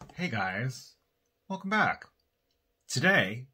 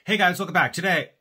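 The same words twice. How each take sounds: First: It is said more slowly. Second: It is said very fast.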